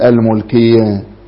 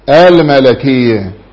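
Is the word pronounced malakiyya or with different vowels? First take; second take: different vowels; malakiyya. First: The word is said with vowels other than malakiyya. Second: The word is said as malakiyya. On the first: The speaker calls it wrong. "ولا تقل الملكية" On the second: The speaker calls it right. "لأن أبرز صفات الملك هو العقل"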